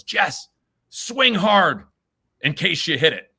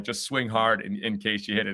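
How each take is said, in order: First: High, loud retold shout from the stands; dad's yell. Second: Said in the usual way. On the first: Dad yells encouragement to nervous son at bat, loud mock shout. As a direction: call it out like a dad cheering at T-ball. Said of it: "And my dad yells". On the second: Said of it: "that was the mindset".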